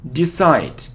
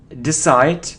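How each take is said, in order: No difference in how they are said.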